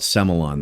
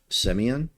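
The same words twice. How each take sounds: First: The word has an Australian pronunciation. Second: The word has its French pronunciation. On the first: The speaker calls it wrong. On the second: The speaker calls it right.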